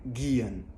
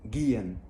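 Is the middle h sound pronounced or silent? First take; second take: silent; silent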